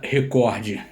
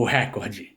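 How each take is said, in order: First: "recorde" stressed on COR; stress on middle syllable. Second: "recorde" mispronounced as RÉ-cor-de; "recorde" turned into a proparoxytone, RÉ-cor-de; stress on first syllable. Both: Shown as a demonstration. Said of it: "É muito comum ouvir".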